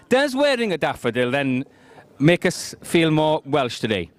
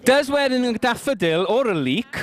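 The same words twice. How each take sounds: First: Said in the usual way. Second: Higher, slowed-down questioning lilt; playful opening question. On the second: Real, not acted. Host teasing the guests about daffodils, sing-song. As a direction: draw the question out, pitched up. Host first asks, then rephrases.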